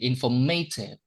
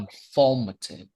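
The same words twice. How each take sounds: First: The stress is not on the second syllable. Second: The stress is on the second syllable. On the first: The speaker calls it wrong. "We don't say informative" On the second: The speaker calls it right. "it is stressed on the second syllable"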